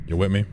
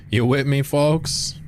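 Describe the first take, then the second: First: Said in the usual way. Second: Calling out higher to the chat; higher repeat. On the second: Acted. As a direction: raise it up and reach for the folks.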